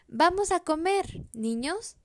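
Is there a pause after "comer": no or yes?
yes. It is said with a pause after comer.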